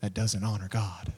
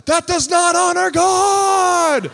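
First: Low, soft, voiced nudge; imitated whisper. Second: High, drawn-out shout, very loud; yelling. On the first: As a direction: say it low and gently, almost whispering. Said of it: "he'll whisper to you". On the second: Retold or imitated. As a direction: yell it out slowly across a playground. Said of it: "he's yelling at them".

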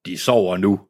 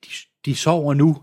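First: Said in the usual way. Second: Put-on calm a scared child; gentle reassurance; mild voice. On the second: A narrator's reading. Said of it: "med en stemme så mild".

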